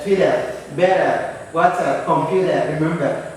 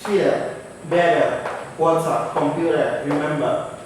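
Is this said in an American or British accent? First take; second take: American; British. First: It is said in an American accent. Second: It is said in a British accent.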